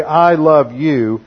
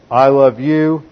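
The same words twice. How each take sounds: First: Slow, leaning on I in I love you; I love you with the weight on I, drawn out; stress on I. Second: I love you with love pressed firmly; stress on love. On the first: Preacher voicing the self-centred lover, stress on I. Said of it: "When you say". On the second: Preacher showing selfless love, stress on love. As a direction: lean on love, not on I. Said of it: "emphasis on the virtue and integrity of the one loving". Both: Shown as a demonstration.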